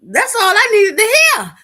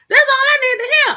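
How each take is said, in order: First: High and loud, thrilled; loud and gleeful; excited loud declaration. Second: High, loud shout, bigger on the repeat; full hammed-up shout; gleeful shout. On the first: Retold or imitated. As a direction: say it like you just got permission. Excited retelling of strip show. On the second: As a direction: yell it like you're cutting loose. Repeats line even bigger.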